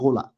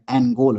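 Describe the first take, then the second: First: The word begins directly with an 'n' sound. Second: The word begins with an open 'ah' vowel. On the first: It is the native original word meaning ruler. The speaker calls it right. "it's Ngola. The N is silent" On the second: It is the foreign, Portuguese-made version of the name. The speaker calls it wrong. "you're pronouncing it like them"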